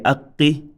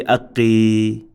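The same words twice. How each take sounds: First: "aqqi" with a held double q and short final i; short vowel ending. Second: "aqqi" with the final i held long; wrongly extended vowel. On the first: Teacher modelling no extension, "aqqi" ending short. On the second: Teacher showing the mistake, "aqqi" with a long ending. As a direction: stretch out the last vowel of "aqqi". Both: Shown as a demonstration. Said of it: "We cannot say aqqi".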